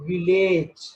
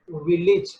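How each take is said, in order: First: The ending sounds like the word age. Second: The ending is a short ij sound. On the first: The speaker calls it wrong. "It is not village. There is age sound" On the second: The speaker calls it right. "that must be ich"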